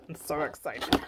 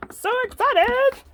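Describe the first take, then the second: First: Said in the usual way. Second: "So excited" squealed much higher and louder, rising on "excited". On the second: Real, not acted. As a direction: squeal "So excited" like a thrilled fan.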